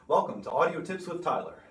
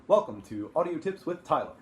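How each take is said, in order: First: The voice has a thick, dense reverb. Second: The voice sounds open with a large room's ambience. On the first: "here is our bathroom. Nice thick reverb there" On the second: "our big live room"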